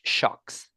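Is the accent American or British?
British. It is said with a British accent. "With British"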